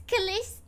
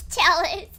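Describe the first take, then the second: First: "Chalice" with a soft k-sound start, unsure rising; hesitant wrong try. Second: "Chalice" said CHAL-iss with a ch start, firm; settled pronunciation. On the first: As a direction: guess at "Chalice" as kuh-liss, questioning. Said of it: "forgot how to pronounce that". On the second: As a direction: land "Chalice" with a clear ch sound. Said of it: "okay, Chalice". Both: Shown as a demonstration.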